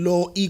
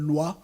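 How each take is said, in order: First: Each written vowel is sounded separately. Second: It has a w sound before the vowel. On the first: The speaker calls it right. "It should be low E because that's exactly what you see" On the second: The speaker calls it wrong. "in French, the word loi. In Zulu logic, there's a W there"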